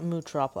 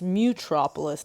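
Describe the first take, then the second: First: The first syllable sounds like 'moo'. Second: The first syllable sounds like 'mew'. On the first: The speaker calls it wrong. "not Mootropolis" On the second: The speaker calls it right. "So it's Mutropolis"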